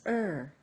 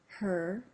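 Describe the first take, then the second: First: The h sound is dropped at the start. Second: The h sound is pronounced at the start.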